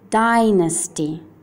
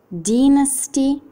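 First: It is said with an American English accent. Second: It is said with a British English accent. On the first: "inglese americano" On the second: "inglese britannico"

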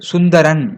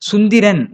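First: The vowel after 'sund' is 'a'. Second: The vowel after 'sund' is 'i'. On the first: The speaker calls it right. "அப்படின்னு சொல்லணும்" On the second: The speaker calls it wrong. "சொல்லக்கூடாது"

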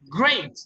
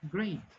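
First: The word is said very loudly and forcefully. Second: The word is said very weakly and quietly. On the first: "Nivel 5" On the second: "muchas personas lo dicen, great. No se escucha mucho"

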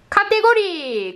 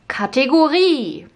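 First: It is said with Japanese katakana pronunciation. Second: It is said with German pronunciation. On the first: The speaker calls it wrong. "こうじゃなくて" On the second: The speaker calls it right. "ドイツ語だったらね"

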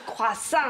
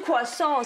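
First: The word is said with a French pronunciation. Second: The word is said with an American English pronunciation. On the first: The speaker calls it right. "是夸上" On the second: The speaker calls it wrong. "不是夸上"

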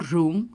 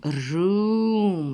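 First: The vowel is said short. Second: The vowel is said long. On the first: The speaker calls it wrong. "я не кажу room" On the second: The speaker calls it right. "я кажу room, довгий у"

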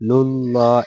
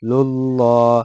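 Both takes have the same delivery.

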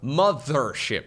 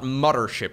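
First: The middle sound is a clear 'th'. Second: The middle sound is not a clear 'th'. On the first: The speaker calls it right. "There you go. There's TH in the middle of that word" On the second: The speaker calls it wrong. "Not Mothership"

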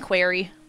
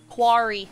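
First: The word is said like 'query'. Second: The word is said like 'quarry'. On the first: The speaker calls it wrong. "I was saying query" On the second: The speaker calls it right. "You're supposed to pronounce it Quarry?"

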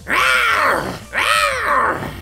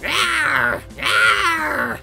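First: It is a stronger meow with a roaring sound. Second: It is a plain little cat meow.

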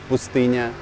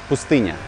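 The two takes are said the same way.

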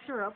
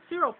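First: It is said in a non-Jamaican accent. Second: It is said in a Jamaican accent. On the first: "instead of you guys would say syrup" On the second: "we would say syrup"

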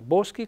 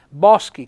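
First: The O is pronounced as a closed vowel. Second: The O is pronounced as an open vowel. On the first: This is how it is said in the dialect. "con la O chiusa" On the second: This is how it is said in Italian. "con la O aperta"

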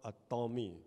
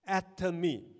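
First: The stress is on the second syllable. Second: The stress is on the first syllable. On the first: The speaker calls it wrong. "don't change it to an Atomy. Because it is not a Tom" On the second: The speaker calls it right. "Atomy, not Atomy"

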